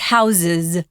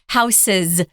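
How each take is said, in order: First: The middle consonant is a Z sound. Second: The middle consonant is an S sound. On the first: The speaker calls it right. "it's houses with a Z" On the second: The speaker calls it wrong. "it's not houses"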